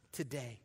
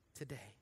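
First: Said in the usual way. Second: "Today" repeated much softer, falling; quiet echo. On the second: Shown as a demonstration. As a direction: let "Today" sink to a hushed echo.

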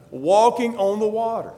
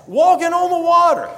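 First: Said in the usual way. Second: High and loud, full of wonder; astonished, voice leaping up high; amazed exclaim. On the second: Retold or imitated. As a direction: cry it out like you can't believe it. Repeated with wonder.

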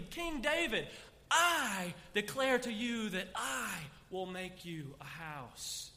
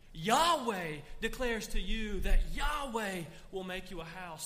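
First: Slow, loud first-person proclamation; God's declaration. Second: God's declaration. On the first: Preacher repeating God's promise in first person, slow and proclaiming. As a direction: say it again as God, now as I. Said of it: "He switches to the third person and repeats it". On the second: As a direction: announce it as God speaking of himself. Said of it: "He switches to the third person". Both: Acted.

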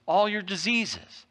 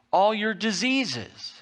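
The two takes are said the same way.

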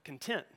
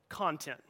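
First: "content" with the second syllable stressed, con-TENT. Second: "content" with the first syllable stressed, CON-tent. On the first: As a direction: hit the last syllable of "content", like the adjective. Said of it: "where you emphasize the second syllable". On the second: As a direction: hit the opening syllable of "content", like the noun. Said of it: "You emphasize the first syllable". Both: Shown as a demonstration.

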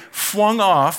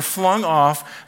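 First: "flung" said as "fwung"; childish mispronunciation. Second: Said in the usual way. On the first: Retold or imitated. Quoting grandson's word, "flung" babyishly said "fwung". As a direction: turn the L of "flung" into a W. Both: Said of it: "flung means flung".

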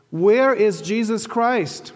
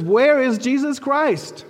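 First: Slow, raised question; first asking. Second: Higher, louder, slow and clear; louder and clearer. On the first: Muhammad asking the tour guide, slow and raised. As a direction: ask it slowly and a bit loud, expecting an answer. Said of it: "So Muhammad says more loudly". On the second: Muhammad repeating to the confused guide, louder and clearer. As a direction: repeat it loud and clear so he can't miss it. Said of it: "says more loudly, more clearly". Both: Retold or imitated.

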